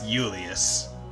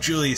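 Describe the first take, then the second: First: The name begins with a Y sound. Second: The name begins with a J sound. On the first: "It's a Y J" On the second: "Instead of Julius Caesar"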